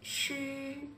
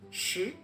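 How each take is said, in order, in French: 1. Le ton reste haut et plat. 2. Le ton monte du milieu vers le haut. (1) "Le premier" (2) "Le deuxième"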